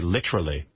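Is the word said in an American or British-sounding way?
British. It is said with a put-on British pronunciation. "they say literally ... they're trying to be British"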